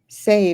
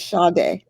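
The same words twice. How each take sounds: First: The name sounds like Sadie. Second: The name sounds like Sade. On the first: The speaker calls it wrong. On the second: The speaker calls it right.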